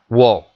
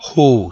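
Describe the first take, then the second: First: It is said with Spanish-style sounds. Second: It is said with a breathy English h. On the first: The speaker calls it wrong. "no se dice wo" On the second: The speaker calls it right. "se dice who, como si fuésemos a dar un susto"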